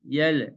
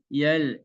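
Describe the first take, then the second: Both takes have the same delivery.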